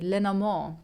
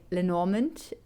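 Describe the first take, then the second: First: "Lenormand" said the French way, leh-no-MOR, nasal vowel, no final d; French-style pronunciation. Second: "Lenormand" said the English way, len-OR-mint, with the R and a final t; anglicised "Lenormand", all letters sounded, rising at the end; English pronunciation. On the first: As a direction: say "Lenormand" the German-French way, falling at the end. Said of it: "That's the way I would say it in, as a German, in kind of like French". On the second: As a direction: say "Lenormand" as an English reader would, lin-OR-ment. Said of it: "that's the English way to say it".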